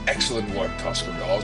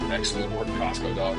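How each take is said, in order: First: It is said in the speaker's normal accent. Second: It is said in an Australian accent.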